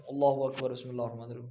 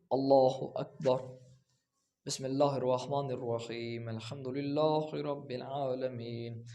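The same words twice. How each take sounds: First: اللہ اکبر run straight into بسم اللہ with no pause; rushed takbir with no break before بسم اللہ; hurried careless prayer opening; wrong, rushed way. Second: Slow Allah Akbar, then a pause of a second before بسم اللہ; slow, calm recitation with a clear break after the takbir; measured prayer opening, unhurried; right way, with a pause. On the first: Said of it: "تو یہ طریقہ درست نہیں ہے". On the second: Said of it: "تکبیرۃ الاحرام کہنے کے بعد ... وقفہ". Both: Shown as a demonstration.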